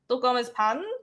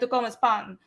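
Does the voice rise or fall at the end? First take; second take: rise; fall. First: The voice rises at the end, like a question. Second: The voice falls at the end, like a statement.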